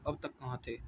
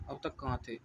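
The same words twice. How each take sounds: Both takes have the same delivery.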